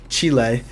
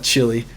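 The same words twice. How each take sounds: First: It is said with a non-American pronunciation. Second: It is said with an American pronunciation. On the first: The speaker calls it right. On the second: The speaker calls it wrong.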